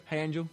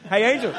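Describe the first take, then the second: First: Said in the usual way. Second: Louder, laughing "Hey, Angel"; cheery greeting. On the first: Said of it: "walking down the street like". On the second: Retold or imitated. Greeting a friend actually named Angel, loud and laughing. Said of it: "unless your name's Angel".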